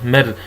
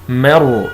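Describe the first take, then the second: First: The r is pronounced light and thin. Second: The r is pronounced heavy and full. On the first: The speaker calls it wrong. "كثيرا ما يخطئ بها القراء فيقول" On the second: The speaker calls it right. "لا"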